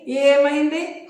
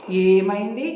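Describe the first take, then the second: First: ఏమైంది drawn out very slowly, higher, rising; bewildered. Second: Said in the usual way. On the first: A narrator's reading. Man baffled by the woman's sudden laughter, drawn-out confusion. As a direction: stretch ఏమైంది out in puzzled wonder. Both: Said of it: "అన్నాడు అయోమయంగా".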